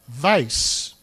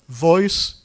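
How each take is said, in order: First: The vowel is an 'eye' sound. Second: The vowel is an 'oy' sound. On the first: This is the creole and older British pronunciation. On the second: This is the current standard pronunciation.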